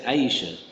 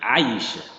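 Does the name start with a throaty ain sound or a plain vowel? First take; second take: plain vowel; ain sound. First: It starts with a plain vowel sound. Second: It starts with a throaty ain sound. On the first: The speaker calls it wrong. "people say Aisha" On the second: The speaker calls it right. "it's Ain, Aisha"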